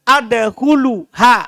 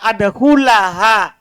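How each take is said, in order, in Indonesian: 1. Kata kerja berakhir dengan vokal u sebelum -ha. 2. Kata kerja berakhir dengan vokal a sebelum -ha. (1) "Tidak boleh untuk baca apa?" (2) "Makanya dibaca hatta ada hulaha"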